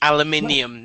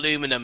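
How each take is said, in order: First: The word is said with five syllables. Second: The word is said with four syllables. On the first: The speaker calls it right. "actually correct. Aluminium" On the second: The speaker calls it wrong. "not aluminum"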